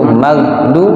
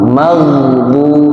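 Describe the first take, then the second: First: The gh sound is stopped hard and abruptly. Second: The gh sound flows on continuously. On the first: The speaker calls it wrong. "Tidak boleh dia syiddah kuat" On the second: The speaker calls it right. "Dinula ngalir suara"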